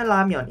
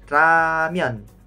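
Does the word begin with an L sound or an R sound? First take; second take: L; R. First: The word begins with an L-like sound. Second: The word begins with an R-like sound. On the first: This is another accepted way to read it. "Tapi ada juga yang bacanya ramyeon" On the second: This is the more common way to read it. "Kalau saya sih bacanya ramyeon"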